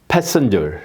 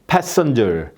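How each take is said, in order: Both takes have the same delivery.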